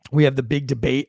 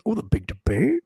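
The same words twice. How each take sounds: First: Said in the usual way. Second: High, swooping mock-puzzled question. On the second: Host mocking his own slip, exaggerated puzzled question.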